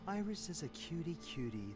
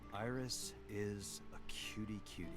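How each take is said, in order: First: It is said warmly, with feeling. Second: It is said flatly, without feeling.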